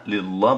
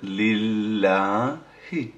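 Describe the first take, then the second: First: লিল্লাহ said clipped, ending on a plain h with no i; the wrong way: লিল্লাহ cut off at the h; লিল্লাহ without the final vowel; wrong pronunciation. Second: লিল্লাহি said very slowly, finishing on a clear i; the right way: draw out লিল্লাহি and sound the final i; লিল্লাহি with the i kept, slow recitation; correct pronunciation. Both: Shown as a demonstration. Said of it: "লিল্লাহ বলবেন না".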